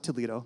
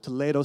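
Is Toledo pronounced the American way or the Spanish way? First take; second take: American; Spanish. First: It is pronounced with an American English accent. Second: It is pronounced with a Spanish accent. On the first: This names the city in Ohio. The speaker calls it wrong. "It's not Toledo. That's Ohio" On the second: This names the city in Spain. The speaker calls it right. "Toledo, Spain is where my family's from"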